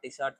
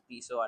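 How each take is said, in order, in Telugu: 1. ఈ పేరు స్పష్టమైన t ధ్వనితో ముగుస్తుంది. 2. ఈ పేరు తెరిచిన అచ్చు ధ్వనితో ముగుస్తుంది. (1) "నేను మొన్నటి వరకు టిసాట్ టిసాట్ అన్నాను" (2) "ఇట్స్ యాక్చువల్లీ ప్రొనౌన్స్ టీసో"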